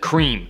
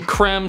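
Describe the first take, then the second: First: The vowel is long, like in 'cream'. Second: The vowel is short, like 'crem'. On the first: This is the common everyday pronunciation. The speaker calls it wrong. "many people, myself included, tend to pronounce it cream" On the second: This is the officially intended pronunciation. The speaker calls it right. "apparently it's supposed to be creme"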